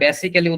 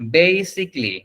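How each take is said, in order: First: It has an extra 'ally' syllable before the end. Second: The first syllable is drawn out, ending 'sick-lee'. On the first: The speaker calls it wrong. "যেখানে বেসিক্যালি উচ্চারণ না" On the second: The speaker calls it right. "বেই এরকম টান হয়ে তারপরে সিকলি"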